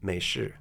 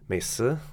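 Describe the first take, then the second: First: It has the Mandarin 'sh' sound. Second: It has the Shanghainese plain 's' sound.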